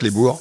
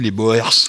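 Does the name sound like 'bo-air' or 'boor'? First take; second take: boor; bo-air. First: The name is said like 'boor', one vowel. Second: The name is said like 'bo-air', two vowels. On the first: This is the original Dutch form. "c'est la prononciation exacte" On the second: This is the usual form heard in France. "parfois en France, on dit les Boers"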